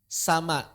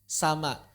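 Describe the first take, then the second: The two takes are said the same way.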